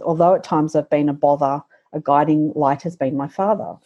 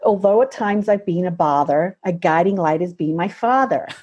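First: It is read in a non-American accent. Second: It is read in an American accent. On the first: Bother and father do not rhyme. The speaker calls it wrong. "it doesn't make sense without an American accent" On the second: Bother and father rhyme. The speaker calls it right. "And then it makes sense"

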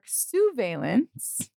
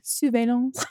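First: It is said in a plain English accent. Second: It is said in a French accent.

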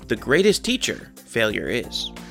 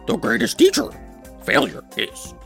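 First: It is said in the speaker's normal voice. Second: It is said in a Yoda impression voice.

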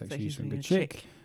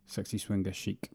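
First: The last word is said like 'chick'. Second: The last word is said like 'sheek'. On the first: The speaker calls it right. "It's Sexy Swinger Chick" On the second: The speaker calls it wrong. "I pronounced it chic. Sexy Swinger Chic, which is incorrect"

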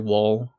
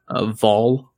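First: The name begins with a W sound. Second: The name begins with a V sound. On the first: This is how most Americans say it. "most Americans would say Wall" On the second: This is how it is said in Swedish. "in Swedish, you actually pronounce it as a V"

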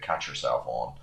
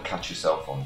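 First: It is said in an imitated Irish accent. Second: It is said in the speaker's usual accent.

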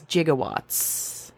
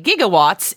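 First: The word begins with a J sound. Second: The word begins with a hard G sound. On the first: The speaker calls it right. "is actually correct as gigawatts" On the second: The speaker calls it wrong. "what we normally would say gigawatts"

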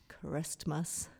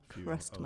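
First: The word is said in a normal voice. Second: The word is said in a funny put-on voice.

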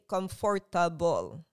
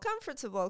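First: Every syllable is said fully and separately. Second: The middle syllables are reduced and run together. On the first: The speaker calls it wrong. "Filipinos syllabicate our words" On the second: The speaker calls it right. "I had to practice to say"

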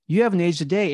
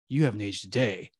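First: It sounds casual and unsuspecting, like Gandalf partying. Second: It sounds alert and suspicious, like Gandalf realizing something.

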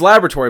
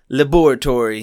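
First: The word is pronounced the ordinary way. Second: The word is pronounced in a character's way. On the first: This is the usual pronunciation. "It's Laboratory" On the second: This is how a cartoon character says it. "but he says Laboratory"

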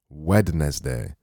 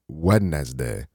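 First: The word is said sounding it as spelled. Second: The same.

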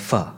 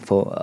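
First: The word ends in an a vowel. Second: The word ends in an o vowel. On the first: The speaker calls it right. "ale fa" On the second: The speaker calls it wrong. "Ne, pho"

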